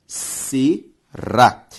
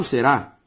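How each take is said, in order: First: "será" in two parts, se... rá; syllable by syllable. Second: Said in the usual way. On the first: Shown as a demonstration. Teacher dividing a word for the class, syllable by syllable. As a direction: separate "será" with a clear pause after se. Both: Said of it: "Se eu separo será".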